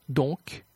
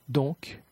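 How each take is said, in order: No difference in how they are said.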